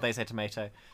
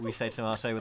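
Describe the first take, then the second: First: It is said the American way. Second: It is said the British way.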